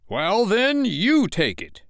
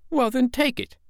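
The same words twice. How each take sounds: First: High, slow, forceful retort; heated comeback. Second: Put-on very high, insistent boy's voice; daring child. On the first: Father returning Michael's dare, heatedly. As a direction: lean hard on throwing it back. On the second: Michael daring his father to take it, insistently. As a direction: dare him in a child's voice. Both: A narrator's reading.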